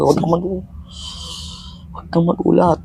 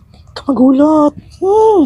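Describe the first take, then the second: First: Said in the usual way. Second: High, slow squeaky voice. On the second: Pretend. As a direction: pitch it way up, slowly. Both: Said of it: "lalaki ako".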